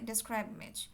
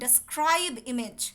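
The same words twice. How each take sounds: First: The middle sounds of 'describe' are blurred. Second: Every sound of 'describe' is said crisply. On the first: The listening system cannot catch the words. The speaker calls it wrong. "অনেকে কি করে ডেসক্রাইব image মানে এমনভাবে বলছে" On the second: The listening system can catch the words. The speaker calls it right. "একদম clear করে বলবেন।"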